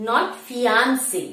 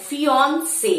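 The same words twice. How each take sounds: First: ফিয়ান্সে with a flat a, fee-an-say, said slowly; slow demo of the wrong ফিয়ান্সে; wrong pronunciation. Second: ফিয়ন্সে with a rounded o sound, fee-on-say; careful clear ফিয়ন্সে; correct pronunciation. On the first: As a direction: show the mistaken ফিয়ান্সে. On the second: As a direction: model the right ফিয়ন্সে. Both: Shown as a demonstration.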